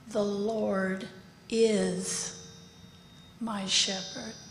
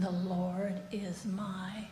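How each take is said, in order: First: The stress is on the word Lord. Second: The stress is on the word my.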